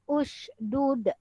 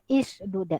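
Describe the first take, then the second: First: The word begins with a u vowel. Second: The word begins with an i vowel. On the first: The speaker calls it right. "hamzah wasal ini pun berbaris hadapan" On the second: The speaker calls it wrong. "Kita tidak boleh baca ishdud"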